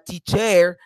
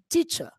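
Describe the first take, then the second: First: The word does not end in a schwa. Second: The word ends in a schwa. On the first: The speaker calls it wrong. "I am not saying uh, teacher" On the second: The speaker calls it right. "I am saying teacher. Okay, this is British"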